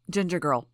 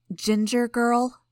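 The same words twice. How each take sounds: First: Said in the usual way. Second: Slow, higher and louder, archly questioning; archly affronted query, pitched up. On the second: A narrator's reading. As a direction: draw out the nickname as an arch challenge. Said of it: "Sierra asked archly".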